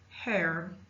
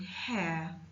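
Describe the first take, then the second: First: The word ends with an audible R sound. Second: The word ends in a vowel without R. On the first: "American English, the R is always pronounced" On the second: "We bring the ya sound"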